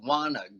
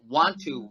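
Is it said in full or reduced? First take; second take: reduced; full. First: The two words are run together into one. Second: The two words are said separately.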